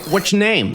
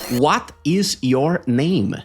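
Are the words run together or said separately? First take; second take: run together; separately. First: The words are contracted and run together. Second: Each word is said fully and separately. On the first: "o inglês da vida real" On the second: "palavras perfeitamente mastigadas"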